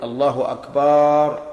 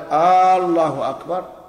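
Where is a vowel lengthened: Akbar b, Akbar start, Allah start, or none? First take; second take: Akbar b; Allah start. First: The vowel after the b in Akbar is lengthened. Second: The opening vowel of Allah is lengthened. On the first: It turns the word into a plural noun. "يمد الباء" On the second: It turns the sentence into a question. "يمد الهمزة لا في الجزء الأول منها"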